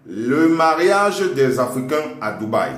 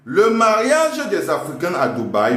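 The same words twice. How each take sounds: First: Dictating. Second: Dictating, rising. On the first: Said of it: "marquez dictée". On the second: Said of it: "À la ligne". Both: Shown as a demonstration.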